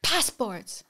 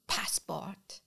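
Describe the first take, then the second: First: An official's impatient second ask; repeated demand. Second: Hushed, offhand official request; curt customs demand. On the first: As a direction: say it again with more weight. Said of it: "he says again". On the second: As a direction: ask for it quietly, not even looking up. Customs agent asks without looking. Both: Retold or imitated.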